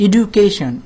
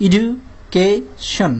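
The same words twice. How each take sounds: First: Said in the usual way. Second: এডুকেশন very slowly, edu... kay... shon; long gaps inside এডুকেশন; three separate syllables. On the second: Shown as a demonstration. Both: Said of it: "তিনটা অংশে ভাগ করা যায়".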